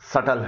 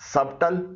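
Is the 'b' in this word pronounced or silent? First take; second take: silent; pronounced. First: The 'b' sound is silent. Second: The 'b' sound is pronounced. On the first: The speaker calls it right. "इसमें बी silent है" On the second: The speaker calls it wrong. "इसे सबटल न पढ़िएगा"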